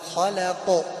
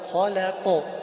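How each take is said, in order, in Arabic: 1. يَنتهي صوت القاف النهائي مع قلقلة خفيفة. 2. يَنتهي صوت القاف النهائي مع قلقلة خفيفة.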